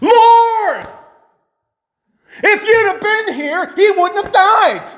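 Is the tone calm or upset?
upset. It is said in an upset, accusing tone.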